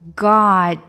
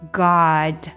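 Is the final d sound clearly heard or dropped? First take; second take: dropped; heard. First: The final d sound is barely heard. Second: The final d sound is clearly released. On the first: "在句子中呢，它可能就不太出来了" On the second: "如果单说这个单词，当然后面的d 会出来"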